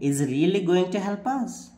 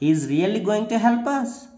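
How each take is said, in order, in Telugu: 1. ఇది సందేహాన్ని సూచించే పడి-లేచే స్వరంతో చెప్పబడుతుంది. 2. ఇది సందేహాన్ని సూచించే పడి-లేచే స్వరంతో చెప్పబడుతుంది.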